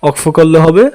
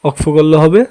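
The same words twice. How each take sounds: Both takes have the same delivery.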